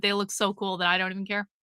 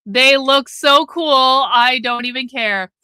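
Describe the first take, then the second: First: Low, soft and fast; quick throwaway. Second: "They look so cool" stretched slow and firm; drawn-out emphasis. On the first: Streamer excusing too many sunglasses, quick and quiet. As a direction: toss it off quickly under your voice. Repeats line as throwaway, then emphatically. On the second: Streamer defending sunglasses habit, slow emphatic "so cool". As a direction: lean slowly on "so cool", full voice. Repeats line emphatically after throwaway take. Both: Real, not acted.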